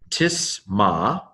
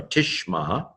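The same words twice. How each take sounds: First: "Tisma" with a plain s in place of sh; mispronounced with s. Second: "Tishma" with a sh sound before the m; corrected to sh. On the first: Teacher misreading a Hebrew word, s for sh. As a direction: say "Tisma", hissless of any sh sound. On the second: Teacher correcting the slip for learners, sh for s. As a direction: say "Tishma", using sh instead of s. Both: Shown as a demonstration. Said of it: "I'm sorry, Tishma".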